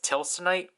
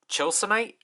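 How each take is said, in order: First: The word begins with a 't' sound. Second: The word begins with a 'ch' sound. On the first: "it's romanized as Tilsonite" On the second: "it's pronounced as Chilsonite"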